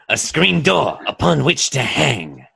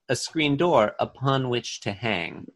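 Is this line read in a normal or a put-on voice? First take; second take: put-on; normal. First: It is read in a put-on character voice. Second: It is read in the speaker's ordinary voice.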